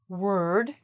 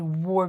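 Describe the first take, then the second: First: The vowel is a reduced 'er' sound. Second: The vowel is a full open 'aw' sound. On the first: The speaker calls it right. "we say word" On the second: The speaker calls it wrong. "We don't actually say ward"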